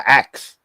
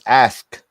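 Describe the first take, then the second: First: The word ends with a 'ks' sound. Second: The word ends with an 'sk' sound. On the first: The speaker calls it wrong. "We all say" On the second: The speaker calls it right. "and it's ask. You know, with an A S"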